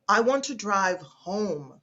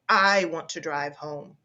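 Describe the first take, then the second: First: The stress falls on the word home. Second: The stress falls on the word I. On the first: Home is where the speaker wants to go. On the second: The speaker, not someone else, will be the driver.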